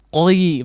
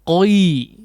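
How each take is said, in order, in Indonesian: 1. Vokalnya meluncur dari bunyi o ke i. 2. Vokalnya meluncur dari bunyi o ke i.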